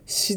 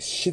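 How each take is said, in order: First: The consonant is a plain s sound. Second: The consonant is an sh sound. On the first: The speaker calls it wrong. "シではなくて" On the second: The speaker calls it right. "SCI はシという発音になります。"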